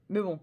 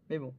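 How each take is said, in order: First: Said in the usual way. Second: Breathless laugh. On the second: Real, not acted. To viewers about her bad English, whispered laugh. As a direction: laugh it off under your breath.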